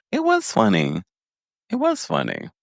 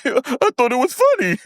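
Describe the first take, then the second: First: Said in the usual way. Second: Very high, squealed imitation; mimicked giggler. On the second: Recapper imitates Maurice defending his giggling, high squeal. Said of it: "giggling at something that was actually funny".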